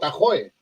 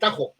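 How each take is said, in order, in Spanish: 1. La consonante del medio es silenciosa o muy débil. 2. La consonante del medio es una j gutural.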